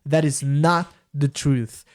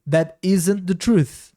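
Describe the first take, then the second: First: The word not is strongly emphasized. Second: The not is contracted and not emphasized. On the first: The denial is the point of the sentence. "enfatizando o não" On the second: The denial is not the focus. "Se o não é, não fosse a ênfase dessa frase, poderia ser contraído"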